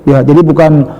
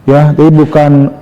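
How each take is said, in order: The two takes are said the same way.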